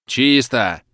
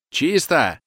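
First: A shout from the far rooms; distant shout. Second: Higher, louder call of clear; shout. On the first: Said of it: "кричат в глубине квартиры". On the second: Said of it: "кричит Истомин". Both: Acted.

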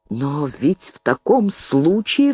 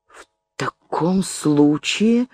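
First: Understated cry of dawning alarm, drawn out; mild exclamation. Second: Slow, hesitant, mildly faltering; faltering babble. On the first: Woman realising her friend is implicated, mild exclamation. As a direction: stretch it, rising into an unfinished thought. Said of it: "вскричала Елена Львовна". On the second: Woman hesitating before a cold listener, faint faltering babble. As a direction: falter through it slowly, leaving it hanging. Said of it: "пролепетала Алимова". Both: A narrator's reading.

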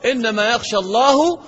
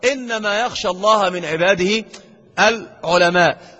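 First: الله read as اللهُ, the subject by mistake; wrong reading. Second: الله with fatha, العلماءُ drawn out slowly; slow العلماء, الله with fatha; correct reading. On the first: Teacher demonstrates the wrong ending on الله. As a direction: say يخشى اللهُ with damma, the grave error. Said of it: "خطأ فاحش". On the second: Teacher reads the correct verse with slow العلماء. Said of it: "ضم وفتحة تضيع لك اعتقادك". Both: Shown as a demonstration.

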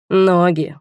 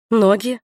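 First: Ноги drawled with dreamy pleasure. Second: Ноги asked back with a rising, blank tune; bewildered Ноги, rising; dumb echo. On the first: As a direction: stretch Ноги out dreamily, falling. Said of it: "мечтательно протянул он". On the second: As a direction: repeat Ноги dumbly, not getting it. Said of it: "глупо переспросила я". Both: A narrator's reading.

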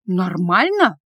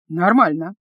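First: Exhaled disbelief. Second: Said in the usual way. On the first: A narrator's reading. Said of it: "выдохнула она".

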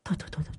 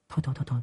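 First: Breathy whispered hushing. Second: Softer hushing; hushed. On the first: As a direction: whisper it in dread. Old woman frightened muttering. ("Thôi, thôi, thôi, thôi" thì thầm sợ hãi) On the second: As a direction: hush her quickly and quietly. Panicked old woman hushing. ("Thôi, thôi, thôi, thôi" nói nhỏ, giục giã) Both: Acted.

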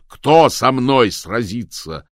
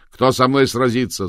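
First: Loud, very slow repeated challenge. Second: Louder challenge; chest-beating challenge shout. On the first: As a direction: drag out the challenge. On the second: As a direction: call out a fighter. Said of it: "закричал он". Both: A narrator's reading.

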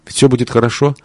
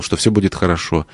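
First: Всё lifted higher with a rising tune; "Ведь всё будет хорошо" with всё raised and the end rising, as if insisting; talking herself into hope, всё stressed. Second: Soft, settling fall on будет; hushed promise to herself; quiet falling reassurance. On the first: Repeated reassurance, second take. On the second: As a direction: say "что всё будет хорошо" gently, leaning on будет and letting it drop. Repeated reassurance, first take. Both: Acted.

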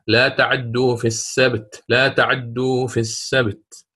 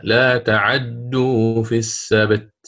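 First: تعدوا with the fatha on the ain only half-voiced, snatched short; lightly chanted Qalun reading of تعدوا with a snatched ain; Qalun's snatched vowel. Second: تعدوا with the fatha on the ain given in full, slow; slow chanted Warsh reading of تعدوا with a full ain vowel; Warsh's full vowel. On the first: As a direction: recite تعدوا snatching the ain's vowel, slow and measured. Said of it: "فقرأ هكذا". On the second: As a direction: recite تعدوا giving the ain a complete fatha, drawn out slowly. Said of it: "وقرأ الإمام ورش بإتمام حركتها". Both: Shown as a demonstration.

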